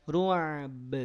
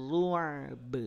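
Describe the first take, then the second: No difference in how they are said.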